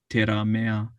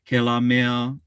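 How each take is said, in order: First: It begins with a T and has a rolled R. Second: It begins with a K and has an L. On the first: "Maybe a Nihao person would say Teramea" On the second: "if I said Kela"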